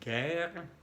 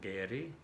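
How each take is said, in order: First: The final e is silent. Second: The final e is pronounced. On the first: The speaker calls it right. "La E al final no se pronuncia" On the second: The speaker calls it wrong. "y no"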